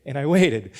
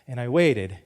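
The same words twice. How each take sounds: The two takes are said the same way.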